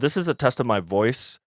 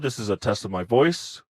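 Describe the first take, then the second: First: The voice sounds at its natural pitch. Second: The voice sounds slightly lower and deeper. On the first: "with the streaming security off" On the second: "my voice was a little deeper when I have the feature toggled on"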